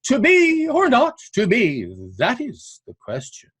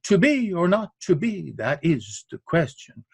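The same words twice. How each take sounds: First: The stress falls on 'that', not 'is'. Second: The stress falls on 'is', not 'that'.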